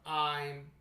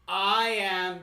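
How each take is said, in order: First: It is said as one contracted word. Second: It is said as two separate words. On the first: "combine two words into one word" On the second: "combine two words into one word"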